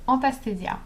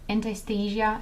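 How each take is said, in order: First: The name is said without an English accent. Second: The name is said with an English accent. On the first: "but it's Anastasia" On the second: "if you pronounce it with an English accent"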